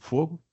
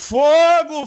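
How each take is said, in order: First: The word is said in a calm, casual way. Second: The word is cried out in an alarmed way. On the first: It is a request for a light. "Se eu fumo e peço a alguém um cigarro, eu digo" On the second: It warns that something is burning. "Mas se eu vejo um incêndio, eu digo"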